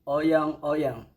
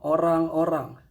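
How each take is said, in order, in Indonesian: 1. Kata ini diucapkan dengan bunyi Y. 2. Kata ini diucapkan dengan bunyi R.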